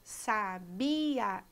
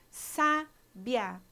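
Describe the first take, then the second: First: The i and a fall in separate syllables. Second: The i and a share one syllable. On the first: "pronunciadas em sílabas separadas" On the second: "o i e o a são pronunciados juntos na mesma sílaba"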